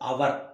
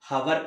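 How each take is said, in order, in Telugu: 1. ఈ పదం అచ్చుతో మొదలవుతుంది, h లేదు. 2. ఈ పదం వినిపించే h శబ్దంతో మొదలవుతుంది. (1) "హెచ్ సైలెంట్ అవ్వగానే ... అవర్ అని సౌండ్ వచ్చింది" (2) "హవర్ కాదండి"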